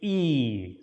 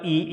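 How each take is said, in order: First: The vowel is held longer. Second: The vowel is held briefly. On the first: "double E is E" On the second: "I is E"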